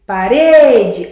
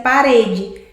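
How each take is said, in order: First: PaREde with RE drawn out loud; stress on middle syllable. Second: Said in the usual way. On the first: Shown as a demonstration. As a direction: lean hard and long on the RE of Parede. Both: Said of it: "olha a sílaba mais forte".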